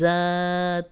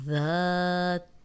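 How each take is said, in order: First: The first sound has a sharp whistling hiss. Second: The first sound is soft, without any hiss. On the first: The speaker calls it wrong. "सीटी की आवाज़ यहाँ ज़ात, ऐसे नहीं" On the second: The speaker calls it right. "ज़ाल को नरम पढ़ना है"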